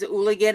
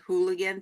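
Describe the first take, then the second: First: The word starts directly with a vowel sound. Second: The word starts with a clear H sound. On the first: The speaker calls it right. "you don't pronounce the hard H sound" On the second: The speaker calls it wrong. "It's not actually said hooligan"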